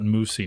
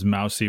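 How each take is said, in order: First: The first vowel sounds like the one in 'moose'. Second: The first vowel sounds like the one in 'mouse'. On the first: The speaker calls it right. "call it moosey now" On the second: The speaker calls it wrong. "what I pronounced as mousy"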